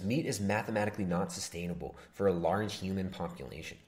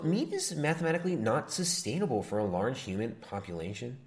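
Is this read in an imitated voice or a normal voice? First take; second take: normal; imitated. First: It is read in an ordinary speaking voice. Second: It is read in a put-on imitation voice.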